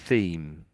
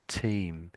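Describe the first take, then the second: First: It begins with a soft TH sound. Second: It begins with a plain T sound. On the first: The speaker calls it right. "most people in Britain would say theme" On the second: The speaker calls it wrong. "it sounded more like team"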